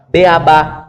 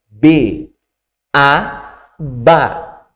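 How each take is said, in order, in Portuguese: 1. As três partes são emendadas, sem pausas. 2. Pequenas pausas separam cada parte antes da sílaba. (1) "não faça assim, ó ... como se fosse uma coisa só" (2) "eu dou uma pequena pausa"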